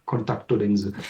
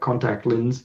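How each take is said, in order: First: It is said with Japanese loanword pronunciation. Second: It is said with English pronunciation. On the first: "and it's contacto lens" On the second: "it comes from English, right? Contact lens"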